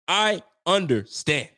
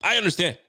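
First: I understand drawn out slowly, sarcastic; slow knowing repeat. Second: Said in the usual way. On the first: Real, not acted. Fan mocking the benching decision, slow drawn-out I understand. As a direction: stretch out I understand, dripping irony.

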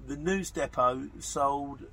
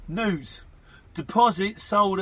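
First: Slow stumbling read of "The news depot sold" with news depot run together as one word; misreading "news depot" while reading a listener message aloud, slowly. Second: "News." then "Deposit sold" said louder and higher, each word set apart and slow; correcting the slip with a firm, slow "News. Deposit sold"; corrected reading. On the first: Reading a listener message aloud on the podcast, stumbling over it slowly. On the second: Reading a listener message aloud on the podcast, correcting his slip loudly. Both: Real, not acted. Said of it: "Sorry, I beg your pardon".

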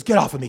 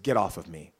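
First: Loud, forceful get off of me; angry shout. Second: Said in the usual way. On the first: Retold or imitated. Attacker yelling at mom to back off, loud. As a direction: shove her off with your voice.

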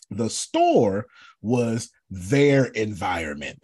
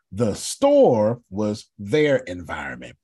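First: Store stressed, said slowly; slow, weighty statement with store stressed; slow emphatic point. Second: Store stressed again, slow and firm; slow repeated point, store leaned on; slow emphatic repeat. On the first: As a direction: spell it out slowly, leaning on store. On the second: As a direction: drive the line home slowly. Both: Shown as a demonstration. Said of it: "Please write this down".

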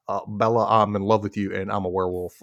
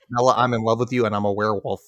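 First: A lightly voiced, lower Taylor Lautner; Taylor Lautner impression. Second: Nasal Taylor Lautner. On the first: Podcaster mimics Taylor Lautner to cohost, lightly lower and brooding. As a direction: mumble it like a brooding teen heartthrob. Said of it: "that's Taylor Lautner impression". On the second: Retold or imitated. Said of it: "He goes nasal".

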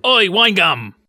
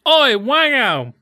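First: Wine gum said clearly and louder; the corrected take of the shout; the real words. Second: Wango said slow and high; the first, misheard take; misheard version. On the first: Host replaying the corrected line, clear shout. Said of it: "he shouts wine gum". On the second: Host replaying what he first heard, slow yell. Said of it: "he goes". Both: Retold or imitated.

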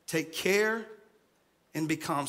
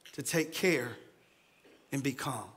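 First: Said in the usual way. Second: Low, soft, soothing; soft calm. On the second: Shown as a demonstration. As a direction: say it like calming a scared child.

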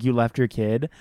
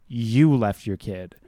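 First: Said in the usual way. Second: "you" drawn out and weighted, rest slower; stress on "you". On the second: Shown as a demonstration. Host driving home the mother's blame, emphatic "you". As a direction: lean slowly and firmly on "you". Repeated to drive point home.

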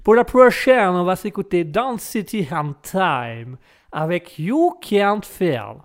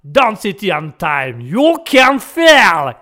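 First: French host putting on an English accent, slow on the titles; English accent for the song intro. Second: Song title stretched very slow and loud in a Texan accent; American Texan accent. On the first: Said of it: "je peux te faire l'accent anglais". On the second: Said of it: "Ça, c'est l'américain". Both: Shown as a demonstration.

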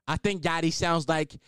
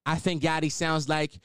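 The two takes are said the same way.

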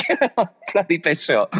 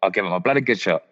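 First: "Give it my bloody best shot" said again higher, clearly getting "best" out; a second, more deliberate try at "bloody best shot"; careful retake. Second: Said in the usual way. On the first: Shown as a demonstration. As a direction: redo the tongue-twisting "bloody best shot" cleanly, pitched up. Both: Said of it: "Oh, I can't even say it".

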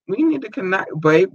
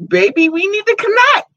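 First: Said in the usual way. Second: Excited squeal. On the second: Real, not acted. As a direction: coo it up high and eager. Repeats the line to Byron, squealing.

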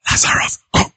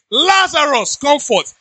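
First: Whispered, voiceless summons; imitating Jesus calling under his breath; hushed command. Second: High, raised calling-out voice; imitating a commanding shout. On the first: Shown as a demonstration. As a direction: whisper the order, barely voiced. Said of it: "If Jesus said". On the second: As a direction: call him out as Jesus, pitched high. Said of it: "said that Jesus shouted".

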